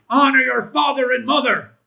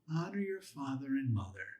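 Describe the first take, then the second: First: It is shouted very loudly. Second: It is said in a mild, gentle voice.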